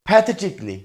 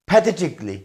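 No difference in how they are said.

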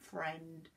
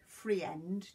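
First: The word is said as one syllable. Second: The word is split into two syllables. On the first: The speaker calls it right. "We just say friend" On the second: The speaker calls it wrong. "but we don't say free end"

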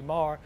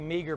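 First: The g is soft and barely heard. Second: The g is pronounced as a hard sound. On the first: This is the Irish way to say it. The speaker calls it right. "the Irish pronunciation is a soft G" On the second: This is the common way people say it. The speaker calls it wrong. "Many people say meager"

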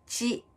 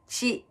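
First: The consonant sounds like a 'ch' sound. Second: The consonant sounds like a 'ch' sound.

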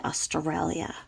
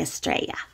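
First: It is said without an Australian accent. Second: It is said with an Australian accent. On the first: This is how the speaker personally says it. "And I say Australia" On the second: This is how locals in Australia say it. "the way that the Australians say it is they say Australia"

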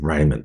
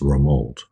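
First: The name is pronounced the English way. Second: The name is pronounced the French way. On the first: The speaker calls it wrong. "I said Raymond there" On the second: The speaker calls it right. "which of course is the French way to pronounce Raymond"

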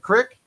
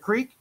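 First: The word is said with a short 'i' vowel. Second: The word is said with a long 'ee' vowel. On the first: The speaker calls it wrong. "not the crick" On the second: The speaker calls it right. "I first heard them when I was down at the creek"

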